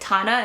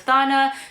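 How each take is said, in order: First: The name begins with a plain t sound. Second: The name begins with a th sound. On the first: This is how it is said locally. "in Thailand they pronounce it Tana" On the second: This is how outsiders might say it. "instead of Thana"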